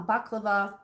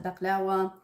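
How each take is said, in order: First: Said in the usual way. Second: Baklawa with a w sound in place of the v; "baklawa" said the family's own way, with a w; home pronunciation. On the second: Shown as a demonstration. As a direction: say "baklawa", ending in -wa rather than -va. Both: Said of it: "or as we call it".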